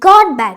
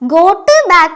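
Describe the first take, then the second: First: The word 'got' ends sounding like a d. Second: The word 'got' ends with a clear t. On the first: The speaker calls it right. "God എന്നുള്ളതിന്റെ ഉച്ചാരണമാണ് ഈ got backന് വരിക" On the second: The speaker calls it wrong. "got back എന്നല്ല പറയാ"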